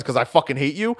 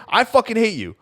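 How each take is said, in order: First: "'Cause I fucking hate you?" with a rising question tune; mock question. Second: "I fucking hate you." pitched higher, with a hard falling tune; falling tune, stress on "I"; emphatic statement. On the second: Retold or imitated. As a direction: slam down "I fucking hate you" as a final verdict. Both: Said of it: "And I'm like".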